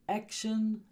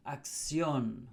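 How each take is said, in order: First: "Action" said the English way, AK-shun, pitched up; English pronunciation. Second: "acción" as ak-SYON, falling; Spanish pronunciation. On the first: Teacher contrasts English with Spanish, English "Action" pitched higher. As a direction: stress the first syllable of "Action", ending in "shun". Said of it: "so in Spanish, a lot of the words". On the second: Teacher contrasts English with Spanish, Spanish "acción" stressed at the end. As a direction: stress the last syllable of "acción", with s-yon for shun. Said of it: "a lot of the words end in ción".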